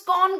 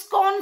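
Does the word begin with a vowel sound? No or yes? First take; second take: no; no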